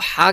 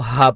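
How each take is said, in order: First: The h comes tightly from the mid throat. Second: The h is a plain, light breath. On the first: The speaker calls it right. "हलक का जो दरमियाना हिस्सा है वहाँ से हम हा को अदा करेंगे" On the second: The speaker calls it wrong. "जो कि गलत है"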